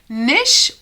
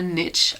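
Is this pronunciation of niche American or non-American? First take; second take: non-American; American. First: The word is said in a non-American way. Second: The word is said the American way.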